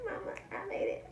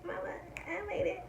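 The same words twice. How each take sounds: First: Much higher triumphant cry; joyful squeal. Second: High whispered repeat; whispered joy. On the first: Vlogger celebrating her sponsor, high joyful cry. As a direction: cry it out to your mother. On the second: Vlogger celebrating her sponsor, high whisper. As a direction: whisper it in disbelief. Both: Shown as a demonstration.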